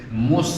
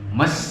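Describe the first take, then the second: First: The vowel is said with rounded, pushed-out lips. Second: The vowel is said with spread, unrounded lips. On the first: The speaker calls it right. "Yang betul mencucu dulu" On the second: The speaker calls it wrong. "akhirnya enggak enggak mes. Enggak mencucu"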